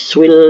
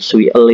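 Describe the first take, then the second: First: The l closes one single syllable. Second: The l is said as a separate extra syllable. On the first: The speaker calls it right. "tapi swil seperti ini ya" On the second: The speaker calls it wrong. "bukan sui l itu bukan ya"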